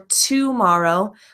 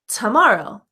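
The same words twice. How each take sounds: First: The first vowel is a full 'o' sound. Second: The first vowel is a relaxed schwa 'uh'. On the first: The speaker calls it wrong. "it looks like today or tomorrow ... it's not pronounced like that in American English" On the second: The speaker calls it right. "Those words are pronounced today, tomorrow ... it has that uh schwa sound"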